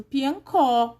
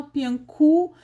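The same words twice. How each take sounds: First: Piancó with an open, stressed final O. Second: Piancu with the last vowel turned to U; final O as U. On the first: Teacher giving an example of accented O, piancó stressed on the end. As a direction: land firmly on the end of piancó. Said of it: "o O acentuado fica có mesmo". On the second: Teacher showing what nobody says, piancu ending in U. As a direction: swap the open O for U in piancu. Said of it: "A gente não fala". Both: Shown as a demonstration.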